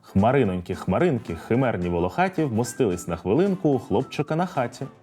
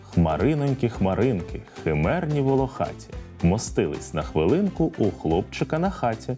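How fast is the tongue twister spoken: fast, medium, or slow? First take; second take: fast; medium. First: It is spoken quickly. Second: It is spoken at a moderate pace. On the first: "А тепер давайте спробуємо швидко" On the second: "А тепер трохи швидше"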